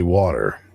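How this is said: It is said in an American accent. "I say water"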